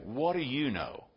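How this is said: It sounds sarcastic and dismissive. The other person seems shallow and uninformed. "if we say it sarcastically"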